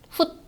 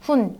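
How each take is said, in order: First: The syllable ends in a stop sound. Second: The syllable ends in an n sound. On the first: The speaker calls it wrong. "이렇게 발음되지 않고" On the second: The speaker calls it right. "이렇게 발음되는"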